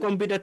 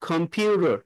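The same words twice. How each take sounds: First: The 'pu' syllable is short and not stretched. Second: The 'pu' syllable is stretched and drawn out. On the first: "যখন আমরা বাংলায় বলি কম্পিউটার" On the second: "পিউর উপরে stretch হবে"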